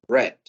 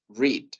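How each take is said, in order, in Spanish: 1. La vocal es corta, rima con 'bed'. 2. La vocal es larga, rima con 'need'. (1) "en pasado decimos read" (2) "En presente decimos read"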